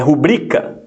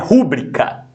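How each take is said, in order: First: The stress is on the middle syllable. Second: The stress is on the first syllable. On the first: The speaker calls it right. "é rubrica. Rubrica, não, ó, pa, é, paroxítona" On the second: The speaker calls it wrong. "não é rúbrica"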